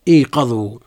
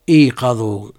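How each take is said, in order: First: The first vowel is an 'i' sound. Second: The same.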